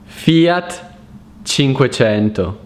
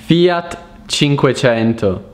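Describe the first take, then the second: No difference in how they are said.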